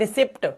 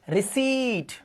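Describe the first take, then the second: First: A p sound is pronounced before the final t. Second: No p sound is heard before the final t. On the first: The speaker calls it wrong. "ना कि रिसिप्ट, पा नहीं बोलना है" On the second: The speaker calls it right. "keep your p silent always"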